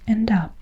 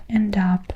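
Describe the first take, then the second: No difference in how they are said.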